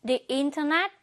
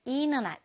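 First: "internet" said carefully with its t; full form of "internet", t not dropped; internet with the t sounded. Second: "internet" said as "innernet"; "internet" with the t melted into the n; internet with dropped t. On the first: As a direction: pronounce the t in "internet" clearly. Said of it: "또는 발음할 때". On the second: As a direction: drop the t after n in "internet". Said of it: "N 발음의 트가 동화가 돼서". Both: Shown as a demonstration.

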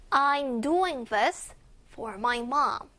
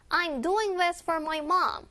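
First: Very slow, careful repeat; slow model reading. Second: A little quicker, pitched higher; faster read. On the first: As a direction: say it slowly once more. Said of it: "한 번 더". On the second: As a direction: speed it up a bit. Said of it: "빠르게". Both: Shown as a demonstration.

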